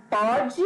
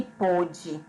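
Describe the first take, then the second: First: "pode" with an open o, like pódi. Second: "pôde" with a closed o, like pôdi. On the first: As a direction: say "pode" with the o open, stressed on the first syllable. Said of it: "E pode é pronunciado com som aberto". ("pode" com o aberto) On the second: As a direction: say "pôde" with the o closed, stressed on the first syllable. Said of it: "ele é pronunciado com o som fechado". ("pôde" com o fechado) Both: Shown as a demonstration.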